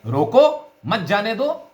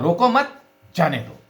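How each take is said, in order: First: "रोको" high and set apart, then "मत जाने दो"; break after रोको. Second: "रोको मत" joined, then "जाने दो" falling; break after मत. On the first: Teacher contrasts two spoken meanings, break after "रोको". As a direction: stress "रोको" and break before "मत". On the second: Teacher contrasts two spoken meanings, break after "मत". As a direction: keep "रोको मत" together, then release "जाने दो". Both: Shown as a demonstration. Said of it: "इन दो स्वराघातों से अर्थ स्पष्ट".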